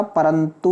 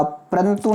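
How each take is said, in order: First: "परंतु" slow, as pa-ran-tu; full-vowel "परंतु". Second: "परंतु" as prantu; clipped-vowel "परंतु". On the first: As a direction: sound the a after p in परंतु. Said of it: "होता है". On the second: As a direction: squash p and r together in परंतु. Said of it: "नहीं होता". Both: Shown as a demonstration.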